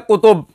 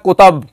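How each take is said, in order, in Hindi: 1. दूसरा स्वर 'u' है। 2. दूसरा स्वर 'a' है। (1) "एक लफ्ज है कुतुब" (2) "हजरत उसको पढ़ते हैं कुतब"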